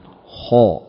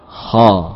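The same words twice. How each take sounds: First: The vowel is rounded, colored toward u. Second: The vowel is open, said with mouth simply opened. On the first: The speaker calls it wrong. "menggerakkan mulut ha, ya. Ini ada unsur dhammah" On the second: The speaker calls it right. "Cukup dengan kita membuka mulut"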